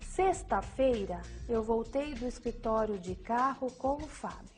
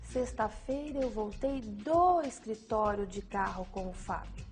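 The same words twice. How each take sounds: First: The stress falls on "sexta-feira". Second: The stress falls on "do escritório". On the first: It tells which day it happened. "A ênfase na sexta-feira indica o dia em que a ação ocorreu" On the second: It tells where the return started. "A ênfase no do escritório indica o local da ação praticada"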